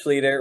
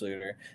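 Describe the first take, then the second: First: The name's ending rhymes with eater. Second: The name's ending does not rhyme with eater. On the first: The speaker calls it right. "But it is Schluter. Rhymes with eater" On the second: The speaker calls it wrong. "many people like think it's Schluter"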